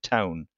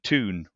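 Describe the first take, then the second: First: It is said with a standard 'ow' vowel. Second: It is said with a Northumbrian 'oo' vowel.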